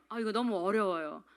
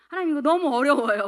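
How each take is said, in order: First: Said in the usual way. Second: Higher, much louder exclaimed grumble; loud mock complaint. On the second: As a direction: protest out loud to God, hammed-up. Acted complaint to God.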